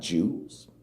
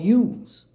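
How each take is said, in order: First: The word begins with a J sound. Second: The word begins with a Y sound. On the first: The speaker calls it wrong. "It doesn't have a sound like that" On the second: The speaker calls it right. "it is pronounced like a Y"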